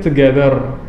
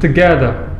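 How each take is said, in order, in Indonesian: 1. Ini diucapkan dengan aksen Indonesia. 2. Ini diucapkan dengan aksen Inggris. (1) "kalau Indonesian mungkin kadang ada beberapa orang ya, mungkin" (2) "Kalau British"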